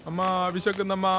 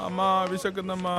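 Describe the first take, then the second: The two takes are said the same way.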